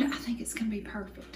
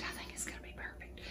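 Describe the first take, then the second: First: Hushed whisper, as if sharing a secret. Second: Barely audible, quick whisper; faint whisper. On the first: Telling viewers a cooking secret, in a whisper. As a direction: lean in and whisper it. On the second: Confiding to the camera in a faint whisper. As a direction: breathe it almost silently. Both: Real, not acted.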